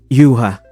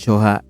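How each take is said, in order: First: The surname begins with a Y sound. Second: The surname begins with a J sound. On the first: The speaker calls it right. "Yuha po yung pronunciation ng pangalan niya" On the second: The speaker calls it wrong. "na-mispronounce ko po yung last name nyo. So, hindi po siya Michael Joha"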